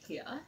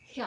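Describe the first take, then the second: First: Said in the usual way. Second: "Here" in an accidental Australian accent. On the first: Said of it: "don't know where that accent came from". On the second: Real, not acted. Vlogger slipping while handling the doll, "Here" in an Australian accent. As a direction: say "Here" Australian-style, the r dropped. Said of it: "Wait, that's Australian".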